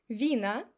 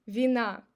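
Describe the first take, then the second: First: Вина stressed on ВИ; stress on first syllable. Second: Вина stressed on НА; stress on last syllable. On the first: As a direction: say Вина as VEE-na, meaning wines. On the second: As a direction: say вина as vee-NA, meaning fault. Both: Shown as a demonstration.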